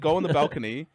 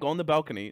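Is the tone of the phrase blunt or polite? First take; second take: polite; blunt. First: It is said in a polite, gentle tone. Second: It is said in a blunt, rude tone. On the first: "more politely" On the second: "not like this"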